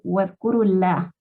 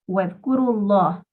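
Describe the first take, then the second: First: The L in Allah is light and soft. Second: The L in Allah is heavy and strong. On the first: The speaker calls it wrong. "No estaría correcto decir" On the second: The speaker calls it right. "la palabra Allah hay que leerla con fuerza"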